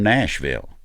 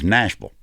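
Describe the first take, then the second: First: The last syllable is a full 'ville'. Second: The last syllable is reduced to 'vul'.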